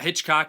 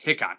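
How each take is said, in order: First: The name is said like 'Hitchcock'. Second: The name is said like 'Hickok'. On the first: The speaker calls it wrong. "It's not Hitchcock" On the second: The speaker calls it right. "it's uh, Hickok"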